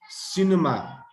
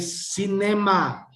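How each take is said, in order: First: The middle vowel is a short schwa. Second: The middle vowel is a full vowel. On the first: The speaker calls it right. "It shortens the, the sound of the ones before and after" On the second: The speaker calls it wrong. "we don't say cinema"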